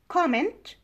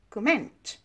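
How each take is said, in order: First: Comment as COM-ment, higher; stress on first syllable. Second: Comment as cuh-MENT, slow; stress on second syllable. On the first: Teacher giving an English example, comment stressed COM-ment. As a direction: hit a full COM in comment. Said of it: "stress is on the first syllable". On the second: Teacher contrasting the pair, comment stressed cuh-MENT. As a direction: weaken the first syllable, land on MENT in comment. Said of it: "stress is on the second syllable". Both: Shown as a demonstration.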